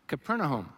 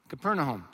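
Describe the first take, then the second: The two takes are said the same way.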